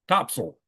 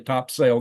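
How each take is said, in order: First: It is said the local way. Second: It is said the way it is spelled. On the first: The speaker calls it right. "The locals all call it Topsail" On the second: The speaker calls it wrong. "They didn't say Topsail"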